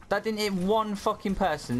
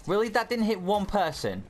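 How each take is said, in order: First: High, disbelieving, angrier repeat; even more outraged disbelief; incredulous. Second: High disbelieving cry; can't believe it missed; incredulous. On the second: Ability misses everyone. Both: Real, not acted.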